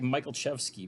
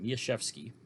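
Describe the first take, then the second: First: The C and L sounds are pronounced. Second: The C and L sounds are silent. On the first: The speaker calls it wrong. "I've been pronouncing it wrong for years now. It looks like" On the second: The speaker calls it right. "the C and the L are both silent in it"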